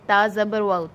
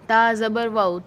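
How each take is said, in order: Both takes have the same delivery.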